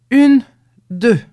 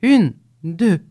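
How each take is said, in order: First: Much louder, higher count shouted out. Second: Loud, rhythmic count; calling out the step. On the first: Two men in the dark shouting the step even louder. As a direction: belt out the second count. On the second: Two men carrying the cow, loudly counting their pace. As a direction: count off the marching step aloud. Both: A narrator's reading. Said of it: "ils criaient".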